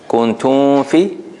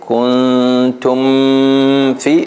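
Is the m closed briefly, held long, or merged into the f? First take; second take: merged; held long. First: The m slides into the f without lips closing. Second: The m is held long and nasal before f. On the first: "if you make a ikhfa, right? Kuntum fi, your lips don't have time to close" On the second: "then you made a ghunna, right? Here it's too long"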